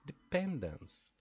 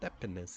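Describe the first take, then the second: First: The stress is on the second syllable. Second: The stress is on the first syllable. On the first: The speaker calls it right. "It's like police. ... the stressed syllable pen" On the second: The speaker calls it wrong. "it's not dependence ... So it's not like hospital"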